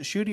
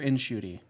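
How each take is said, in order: First: The name begins directly with a sh sound. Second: The name begins with an n before sh. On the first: "is it Shooty" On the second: "it actually is in Shooty"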